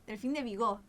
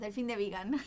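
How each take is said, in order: First: The surname is said with a French reading. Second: The surname is said with an English reading. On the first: This is how the name really sounds. The speaker calls it right. "nos enteramos que era, lo buscamos en Google" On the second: This is how they used to say it by mistake. The speaker calls it wrong. "Nosotros decíamos delfín de vegan"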